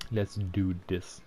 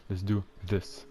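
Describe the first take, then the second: First: "this" with a hard d-like start, slowly; slow "Let's do this", "this" nearing "dis"; accented th in this. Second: "this" with a soft voiced th; tongue between teeth to start "this"; corrected th in this. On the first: Player practicing pronunciation, slow d-like "this". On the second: Player correcting own pronunciation, careful th in "this". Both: Shown as a demonstration. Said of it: "this is the right way to say this".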